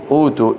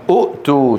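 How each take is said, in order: First: أوتوا with a smooth long oo, no stop before too; substituted long vowel. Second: أؤتوا with a short u cut by a glottal stop before too; original hamza form. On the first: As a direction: glide through أوتوا without a glottal stop. (نطق «أوتوا» بمدّ الواو دون همزة ساكنة) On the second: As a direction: stop the breath after the first u of أؤتوا. (نطق «أؤتوا» بهمزة ساكنة محققة) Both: Shown as a demonstration. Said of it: "شو بتصير؟".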